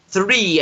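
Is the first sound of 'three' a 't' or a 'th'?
th. It is said with a clear th sound. The speaker calls it right. "I should say"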